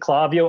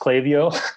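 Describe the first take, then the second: First: The name is said with a Spanish pronunciation. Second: The name is said with an English pronunciation. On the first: "I always say Clavio... I just pronounce it as it is in Spanish" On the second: "you're right. It is pronounced Klaviyo"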